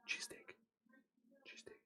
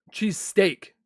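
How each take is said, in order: First: Very soft, trailing away to almost nothing; barely audible muttering. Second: Said in the usual way. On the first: Real, not acted. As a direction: repeat it under your breath. Repeats the word to herself.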